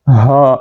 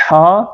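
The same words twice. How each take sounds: First: "ہا" with plain open breath h; deep-throat haa. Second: "ہا" with tight, rasped h and long vowel; mid-throat haa. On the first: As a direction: exhale "ہا" from low in the throat. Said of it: "یہ حلق کے نیچے سے". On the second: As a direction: push "ہا" from the middle of the throat. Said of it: "یہ حلق کے درمیان سے". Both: Shown as a demonstration.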